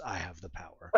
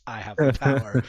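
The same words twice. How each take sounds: First: Low, hushed mock scream; strained battle cry held right down; toy sword's battle cry. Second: Loud mock battle cry; son's imitated scream. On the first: Dad imitating the He-Man sword's recorded scream, low mock scream. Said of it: "and it screams". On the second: Dad imitating his son with the He-Man sword, loud mock scream. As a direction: belt it out like an excited kid copying a toy. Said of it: "my son screams".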